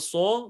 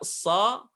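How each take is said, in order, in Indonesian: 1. Diucapkan dengan bibir maju dan membulat. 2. Diucapkan dengan mulut tetap terbuka. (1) "bukan so" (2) "tapi dibuka so"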